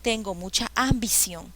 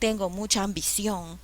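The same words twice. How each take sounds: First: The stress in ambición falls before the last syllable. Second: The stress in ambición falls on the last syllable. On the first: The speaker calls it wrong. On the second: The speaker calls it right. "Ción"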